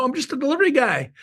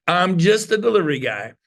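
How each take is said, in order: First: Delivery guy act. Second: Said in the usual way. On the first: Pretend.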